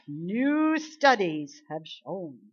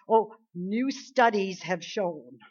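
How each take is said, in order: First: Very slow, drawn-out mock announcement; mocking media voice. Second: Slow, drawn-out mock announcement; mocking media voice. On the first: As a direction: stretch it out in mockery. Mocking media claims again. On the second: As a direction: parody a pompous news claim.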